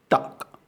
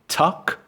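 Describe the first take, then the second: First: It starts with a t with no puff of air. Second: It starts with a t followed by a puff of air. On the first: The speaker calls it right. "It's duck" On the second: The speaker calls it wrong. "It's not tuck"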